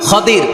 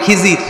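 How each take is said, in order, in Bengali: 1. নামটি আরবি রূপে বলা হচ্ছে: Khadir। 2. নামটি বাংলা রূপে বলা হচ্ছে: Khizir। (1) "আসলে ওনার নাম কি?" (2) "যারা আমরা বাংলায় বলি"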